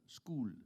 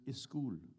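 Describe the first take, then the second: First: The word starts directly with the s sound. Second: An extra vowel comes before the s sound. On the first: This is the corrected form given to the mother. The speaker calls it right. "you're trying to correct her" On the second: This is how the mother said it. The speaker calls it wrong. "She could never get it right. It was is school"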